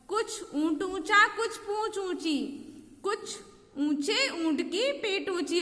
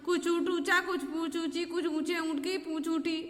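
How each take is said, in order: First: It is read slowly and clearly. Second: It is read fast, with the tongue stumbling.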